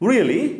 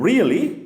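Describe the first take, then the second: First: The voice rises at the end. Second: The voice falls at the end. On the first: "rising" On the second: "falling"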